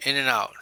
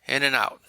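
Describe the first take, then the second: No difference in how they are said.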